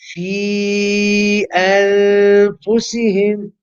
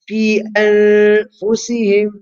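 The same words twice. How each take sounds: First: The vowel in 'fi' is drawn out longer. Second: The vowel in 'fi' is held briefly. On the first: The reciter feels strong and energetic. "you can pronounce it young" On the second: The reciter is saving breath. "you can recite it as two, keep it short"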